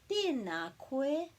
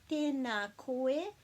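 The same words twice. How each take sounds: The two takes are said the same way.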